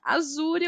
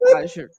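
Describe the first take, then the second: First: It is said with a Brazilian Portuguese accent. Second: It is said with an American English accent. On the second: "se eu estivesse nos Estados Unidos eu falaria Azure"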